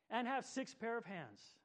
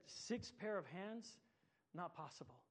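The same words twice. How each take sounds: First: Said in the usual way. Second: Softer, slow disbelieving question; the angel can't believe it, slowly; quiet disbelief, six pair of hands drawn out; incredulous, slow and softer. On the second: A narrator's reading. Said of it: "shook its head slowly and said".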